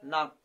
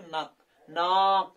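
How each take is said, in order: First: नाक said short and natural, the correct model; right way. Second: नाक with the aa stretched long and loud; wrong way. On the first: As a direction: say नाक the normal way with a short clean vowel. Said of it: "हम लोग क्या बोलते हैं?". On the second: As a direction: stretch the vowel of नाक too far, as the wrong example. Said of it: "ऐसे नहीं बोलते दोस्तों". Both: Shown as a demonstration.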